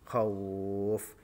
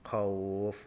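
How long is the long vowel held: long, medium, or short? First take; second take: medium; short. First: The long vowel is held for four beats. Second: The long vowel is held for two beats. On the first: "dua alif contoh" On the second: "Sekarang yang coba yang satu alif"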